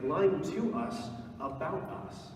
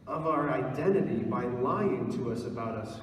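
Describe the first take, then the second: First: Slow repeat, lying leaned on with a rise; lying stretched and lifted at the end; stress on lying. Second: Said in the usual way. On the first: Real, not acted. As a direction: drive home the word lying, slowly. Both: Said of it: "like, lying to us about us".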